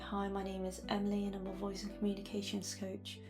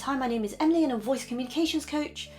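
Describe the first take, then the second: First: The words are mumbled and unclear. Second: The words are spoken very quickly. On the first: "you mumble a little bit like this" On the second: "you talk really quickly like this"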